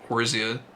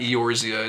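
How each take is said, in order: First: The word begins directly with the O vowel. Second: The word begins with a sounded E vowel. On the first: The speaker calls it right. "The E is probably silent" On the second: The speaker calls it wrong. "I feel like I'm saying the O too hard"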